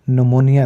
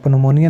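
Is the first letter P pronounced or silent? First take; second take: silent; pronounced. First: The word begins with an N sound. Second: The word begins with a sounded P. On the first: The speaker calls it right. "नमोनिया इसको पढ़ा जाएगा" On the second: The speaker calls it wrong. "पनोमोनिया नहीं बनेगा"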